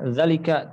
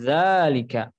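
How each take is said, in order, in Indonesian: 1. Vokal pertama pendek. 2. Vokal pertama dipanjangkan. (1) "Jangan zalika zalika" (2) "Zal di sini ya sedikit dipanjangkan ya, mungkin bisa dua harokat"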